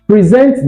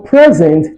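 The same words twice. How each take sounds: First: The stress is on the second syllable. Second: The stress is on the first syllable. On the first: It is a verb meaning to give or show. "in the usage of the verb, the stress moves to the second syllable" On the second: It is a noun meaning a gift. "for present, the stress is on the first syllable"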